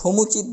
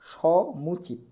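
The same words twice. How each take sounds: First: The first vowel is a closed oh sound. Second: The first vowel is an open aw sound. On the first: The speaker calls it wrong. "এটা সমুচিত বলতে পারবো না" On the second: The speaker calls it right. "সো বলা যাবে না, সমুচিত"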